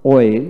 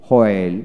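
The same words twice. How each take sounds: First: ওয়েল starting on w, no h; ওয়েল with a plain w onset; British w pronunciation. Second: হোয়েল with an audible h first; হোয়েল starting on breathed hw; American h pronunciation. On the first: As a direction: drop the h in ওয়েল. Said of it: "British উচ্চারণে". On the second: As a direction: sound the h in হোয়েল. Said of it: "আমেরিকানে হ". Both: Shown as a demonstration.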